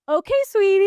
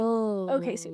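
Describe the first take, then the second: First: It is said in a playful, affectionate tone. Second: It is said in a dismissive, condescending tone. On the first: The listener is being cheered on. "kind of fun" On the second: The listener is being talked down to. "dismissive or condescending"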